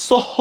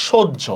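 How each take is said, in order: First: "সহ" with a plain h, as written; spelling pronunciation. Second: "সহ্য" as shojjho, with a doubled jjh; correct pronunciation. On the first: Teacher asking class if it is said so, spelling pronunciation. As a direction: say "সহ" letter by letter as spelled, open h. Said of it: "সহ না". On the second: Teacher giving class the spoken form, correct pronunciation. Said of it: "এটার উচ্চারণ আমরা কি বলি?". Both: Shown as a demonstration.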